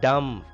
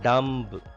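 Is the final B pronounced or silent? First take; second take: silent; pronounced. First: The final B sound is silent. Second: The final B sound is pronounced. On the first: The speaker calls it right. "B is silent here" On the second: The speaker calls it wrong. "It is not dumb"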